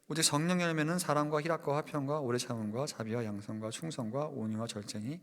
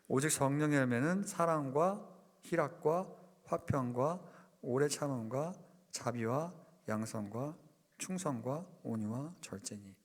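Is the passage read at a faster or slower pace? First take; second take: faster; slower. First: The passage is read at a normal, quicker pace. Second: The passage is read slowly and deliberately.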